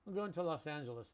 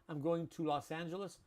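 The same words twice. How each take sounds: First: Going to is said loosely with little lip movement. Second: Going to is said fully with clear lip movement. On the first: The speaker calls it right. "We have a very relaxed way of speaking" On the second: The speaker calls it wrong. "instead of saying to"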